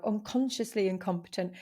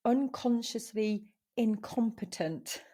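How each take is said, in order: First: Said in the usual way. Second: Unconsciously incompetent spelled out slowly; name the stage "unconsciously incompetent" slowly and carefully; slow emphasis. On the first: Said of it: "at this stage now". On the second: Shown as a demonstration. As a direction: lean on "unconsciously" with a slow, deliberate pace. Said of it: "the first stage is you become".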